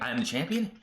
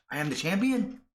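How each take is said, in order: First: A mild questioning rise, close to normal pitch; shocked question. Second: Shocked disbelief. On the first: Asuka doubting she is champion, mildly surprised. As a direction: ask it in light disbelief. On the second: Asuka realising she is champion, mock astonished. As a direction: jump much higher in mock amazement. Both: Retold or imitated. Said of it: "Asuka is shocked".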